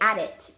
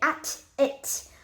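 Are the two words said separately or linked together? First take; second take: linked; separate. First: The two words run together quickly and linked. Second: The two words are said separately and carefully.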